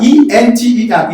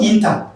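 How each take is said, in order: First: "enter" starting EN, "EN-ta"; correct enter pronunciation. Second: "inter" starting IN, "IN-ta"; wrong enter pronunciation. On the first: Teacher showing the right sound, "enter" as EN-ta. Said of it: "not it, not inter". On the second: Teacher showing the error to avoid, "inter" as IN-ta. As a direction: close I in place of E in "inter". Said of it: "not inter". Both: Shown as a demonstration.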